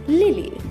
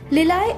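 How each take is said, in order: First: The word ends with an 'ee' sound. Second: The word ends with an 'eye' sound. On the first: The speaker calls it right. "एक और बार" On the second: The speaker calls it wrong. "इसका गलत उच्चारण है"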